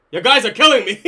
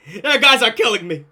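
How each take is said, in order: First: Said in the usual way. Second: Said through real laughter; cracking up at the chat; laughing. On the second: Real, not acted. Streamer laughing at chat comments.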